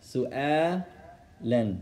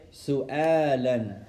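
First: "سؤالا" drawn out slowly with a fall; teacher slowing "سؤالا" for students; slow model word. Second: "سؤالا" said clearly with a falling tune; teacher sounding out "سؤالا"; model word. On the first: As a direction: say it slowly so they can repeat. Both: Shown as a demonstration. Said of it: "I'll say it, you say it".

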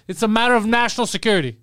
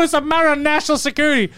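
First: Lightly voiced self-important guy, a little higher; hint of a pompous secret agent; mock secret agent. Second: Lightly voiced self-important guy; a hint of a know-it-all secret agent; mock secret agent. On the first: Retelling the parking guy's claim, mild mock agent. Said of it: "he can't say anything more". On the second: Parking attendant telling mom, mild mock secret agent. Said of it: "he looks at my mom and goes".

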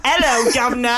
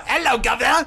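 First: British greeting, barely put on; British accent. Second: Lightly done British accent, Hello, governor said cheery; a hint of a Cockney British greeting. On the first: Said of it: "Fucking bloody hell". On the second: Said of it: "do your, uh, British". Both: Shown as a demonstration.

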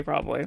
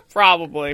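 First: Said in the usual way. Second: Chuckling through the word; laughing. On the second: Real, not acted. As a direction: say it while laughing.

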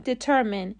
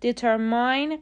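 First: Determine with a short i in the last syllable, di-TER-min; correct pronunciation. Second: Determine ending in -mine like mine, slowly; wrong pronunciation. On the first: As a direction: say determine ending in -min, not -mine. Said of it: "تلفظ صحیح determine". (تلفظ درست determine با «مین» کوتاه در آخر) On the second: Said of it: "determine غلطه". (تلفظ غلط determine با «ماین» در آخر، آهسته) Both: Shown as a demonstration.

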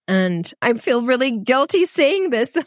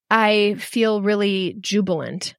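First: Said in the usual way. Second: "jubilant" drawn out slowly and relished; slow, savoured. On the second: Real, not acted. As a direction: linger on "jubilant", let it land. Guilty vs jubilant contrast.

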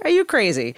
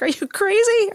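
First: Said in the usual way. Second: High, disbelieving outcry; incredulous cry. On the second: Retold or imitated. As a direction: shout it at a fool in a horror film. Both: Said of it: "I was like".

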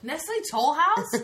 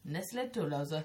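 First: "Nestlé Toll House" high and loud, as English words; laughing, drawn-out "Toll House", two clear words; incredulous "Nestlé Toll House", slow and high; correct English name. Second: "Nestlé Tollosa" as Ness-lay Too-loze-uh, lower; French-style "Tollosa", stressed on the loze; mock French mispronunciation. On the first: Retold or imitated. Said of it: "That's exactly what it was like". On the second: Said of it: "what's it on Friends?".

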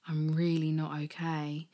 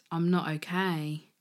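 First: Whispered through starting tears; barely voiced, choked up admission; tearful whisper. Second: Said in the usual way.

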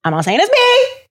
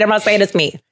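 First: Mock-innocent disclaimer. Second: Said in the usual way. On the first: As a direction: voice shooting up high at the end. Jokey disclaimer, then repeated plainly.

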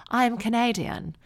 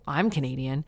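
First: Higher, imitated posh transatlantic twang; posh American, British twang. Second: Said in the usual way. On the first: The mom corrects her, posh British-tinged twang. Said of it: "She sort of talked like this".

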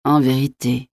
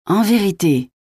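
First: Subdued, sorrowful disbelief; pained, stunned murmur. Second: High, delighted exclamation; light up with delight, pitch jumping up; beaming. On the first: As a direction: take it in painfully, almost to yourself. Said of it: "murmura La Mole avec une stupéfaction douloureuse". (murmure de stupéfaction douloureuse) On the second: (rayonnant, voix haute et ravie) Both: A narrator's reading.

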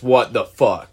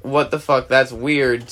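First: Louder, truly shocked. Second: Mild what-the-heck puzzlement; mildly puzzled. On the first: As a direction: react like it's beyond weird. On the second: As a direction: say it like it's just odd. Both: Retold or imitated. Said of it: "this is where it goes from".

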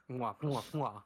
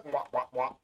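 First: Double air kiss. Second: Pac-Man kisses. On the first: Pretend. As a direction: blow kisses at the mic. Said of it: "gets a little kiss from me". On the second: Retold or imitated. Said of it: "kissing him like Pac-Man".

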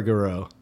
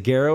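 First: Garreau as guh-ROH; Garreau with a reduced first vowel; second pronunciation option. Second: Garreau as GAIR-oh; Garreau with a full "gair" first; first pronunciation option. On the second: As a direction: stress the start of Garreau, GAIR-oh. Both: Shown as a demonstration. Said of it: "Is it Garreau or Garreau?".

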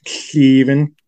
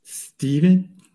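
First: "Steven" drawn out with a lisp, rising. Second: "Steven?" lisped, high and rising. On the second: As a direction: ask "Steven?" with a lisp, higher. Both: Retold or imitated. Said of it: "that's just how Chip talks".

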